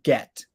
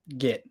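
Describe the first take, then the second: First: The vowel sounds like a short e. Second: The vowel sounds like a short i. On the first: "with an E sound" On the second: "It sounds more like an I"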